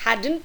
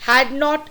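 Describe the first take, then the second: First: It is said as one contracted word. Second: It is said as two separate full words.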